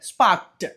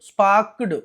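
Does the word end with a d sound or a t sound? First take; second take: t sound; d sound. First: The word ends with a t sound. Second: The word ends with a d sound. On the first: The speaker calls it right. "ట్ ట్ పలకాలండి" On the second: The speaker calls it wrong. "ఇలా చదవకూడదు... డా కాదండి"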